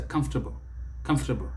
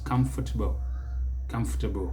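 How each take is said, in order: First: Comfortable as CUMF-ter-bl; American three syllables. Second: Comfortable as CUM-fuh-tuh-bl; British four syllables. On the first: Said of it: "Americans will put it even faster". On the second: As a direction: give comfortable four syllables, first one stressed. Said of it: "it is four syllables". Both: Shown as a demonstration.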